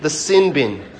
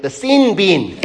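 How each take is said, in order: First: Sin bin with clipped New Zealand vowels. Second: Sin bin in a broad Australian accent, higher and louder. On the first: Preacher showing congregation the Kiwi pronunciation. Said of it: "That's how you say it in New Zealand". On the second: Preacher mocking Australians for the congregation. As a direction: put on an Aussie twang for sin bin. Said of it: "let me put my Australian accent on". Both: Shown as a demonstration.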